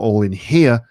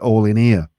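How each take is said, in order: First: The H in 'here' is pronounced. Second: The H in 'here' is dropped. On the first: "Not all in here" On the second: "H dropping. This is just not pronouncing H sounds"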